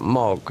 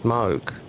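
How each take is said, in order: First: The name has a short vowel, like 'log'. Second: The name has a long vowel, like 'moo'. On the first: The speaker calls it wrong. "It's not Mog" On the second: The speaker calls it right. "it's Moog"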